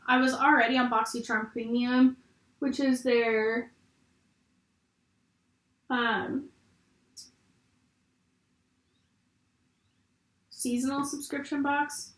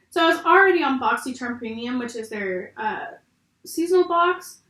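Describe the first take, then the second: First: Talking while doing mascara; distracted, halting while applying mascara. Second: Said in the usual way. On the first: Real, not acted. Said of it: "I can't talk and do mascara at the same time". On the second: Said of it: "Sorry, guys, for the pauses".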